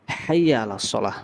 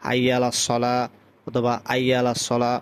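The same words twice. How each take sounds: First: হাইয়া opening on a strong throaty h; হাইয়া আলা সলাহ with full initial h; correct ha. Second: আইয়া with no h at the start; wrongly dropped h. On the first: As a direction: sound the h clearly at the start of হাইয়া. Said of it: "হা দিয়ে উচ্চারণ করতে হবে". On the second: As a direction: drop the h, begin on a plain vowel as আইয়া. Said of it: "অনেকে বলে". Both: Shown as a demonstration.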